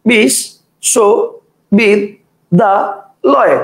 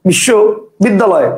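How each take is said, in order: First: The word is broken into five separate chunks. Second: The word is broken into two separate chunks. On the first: "একজন বলবে বিশ, শো, বিদ, দা, লয়, কটা হলো? পাঁচটা।" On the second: "কেউ উচ্চারণ করবে বিশ্ব বিদ্যালয়, কটা হলো? দুইটা।"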